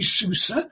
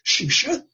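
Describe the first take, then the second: First: The name begins with a plain s sound. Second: The name begins with an sh sound.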